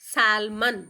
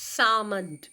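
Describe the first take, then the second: First: The l sound is pronounced before the m. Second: The l sound is left out completely. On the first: The speaker calls it wrong. "ಎಲ್ ಎರಡರಲ್ಲೂ ಹೇಳಬಾರ್ದು" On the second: The speaker calls it right. "It's ಆಮಂಡ್ ಸಾಮಂಡ್"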